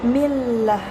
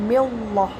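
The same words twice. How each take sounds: First: The L sound is light and thin. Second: The L sound is heavy and thick. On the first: The speaker calls it right. "lamnya lam tipis atau takkid" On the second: The speaker calls it wrong. "bukan millah"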